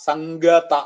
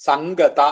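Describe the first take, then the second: No difference in how they are said.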